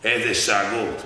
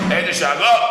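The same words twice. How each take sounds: First: Said in the usual way. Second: Higher, louder burst on the word; exclaimed loudly. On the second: A narrator's reading. Preacher exclaims to the crowd how the king roared, loud. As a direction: throw it out like a roar. Describing the king's roars.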